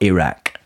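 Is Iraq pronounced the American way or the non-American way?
non-American. It is pronounced the non-American way. The speaker calls it right. "and not Iraq"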